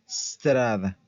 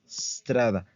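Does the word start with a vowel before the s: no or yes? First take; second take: no; no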